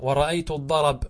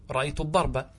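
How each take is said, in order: First: "الضرب" said ad-darab, a moved onto r; pause by transfer. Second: "الضرب" said ad-darba, final a sounded; original case ending. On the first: Teacher shows accusative pause, "الضرب" said ad-darab. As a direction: end "الضرب" on bare b after a. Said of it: "نقلنا الفتحة إلى الراء". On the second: Teacher restates the original, "الضرب" said ad-darba. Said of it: "أصله هذا الضرب". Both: Shown as a demonstration.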